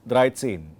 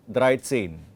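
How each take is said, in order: Both takes have the same delivery.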